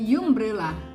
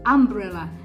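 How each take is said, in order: First: The word begins with a 'you' sound. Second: The word begins with an 'am' sound. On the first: The speaker calls it wrong. "bukan umbrella" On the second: The speaker calls it right. "Jadi cara bacanya itu adalah umbrella"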